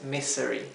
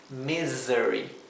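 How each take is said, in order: First: The middle consonant is a hissing s sound. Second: The middle consonant is a buzzing z sound. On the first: The speaker calls it wrong. "no es misery" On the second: The speaker calls it right. "es misery"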